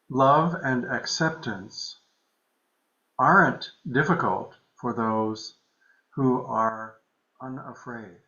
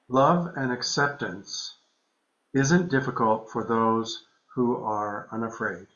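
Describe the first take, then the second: First: It is read very slowly. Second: It is read at a normal pace.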